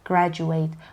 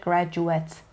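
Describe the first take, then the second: First: The final syllable rhymes with 'eight'. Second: The final syllable has a short, reduced vowel. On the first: The word is used as a verb. "اما اگر verb باشه wait graduate graduate" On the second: The word is used as a noun. "اگر noun باشه pronunciationش میشه graduate at wet"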